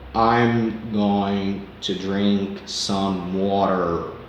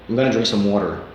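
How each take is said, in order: First: The sentence is said slowly and carefully. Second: The sentence is said quickly in one go. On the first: "tenta devagarzinho na primeira" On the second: "Se você tentar fazer isso rápido de uma vez só"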